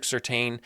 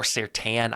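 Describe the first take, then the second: First: "Surtain" said to end like "tain", as in "obtain"; first pronunciation variant. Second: "Surtain" said to end like "tan"; alternative pronunciation. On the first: Host trying a player's name, "Surtain" with long-A ending. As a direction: say "Surtain" with a long A in the last syllable. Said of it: "I don't know how people say it". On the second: Host offering another version, "Surtain" ending in "tan". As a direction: say "Surtain" with a short A, as "sur-TAN". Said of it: "I hear it pronounced differently every time". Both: Shown as a demonstration.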